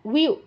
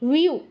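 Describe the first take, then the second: First: It begins with a w sound. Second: It begins with a w sound.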